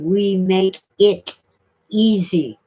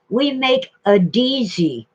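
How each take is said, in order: First: The t in 'it' is clearly pronounced. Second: The t is dropped, giving 'a Deezy'. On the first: The speaker calls it right. "It's supposed to be" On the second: The speaker calls it wrong. "It's supposed to be we make it easy"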